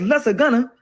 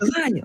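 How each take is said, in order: First: The g is pronounced as a hard sound. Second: The g is silent in the word. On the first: The speaker calls it wrong. "I'm reading as lesser gunner" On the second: The speaker calls it right. "lasagna had a silent G in it"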